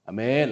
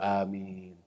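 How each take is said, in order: First: The amen is said in a hurried, impatient tone. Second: The amen is said calmly and sincerely. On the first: The speech is taking too long; please finish. The speaker calls it wrong. "Udah lain, nadanya juga kan lain" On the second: The prayer is being genuinely affirmed. The speaker calls it right. "bahkan memang sudah yang dibaca adalah bagian doa ya"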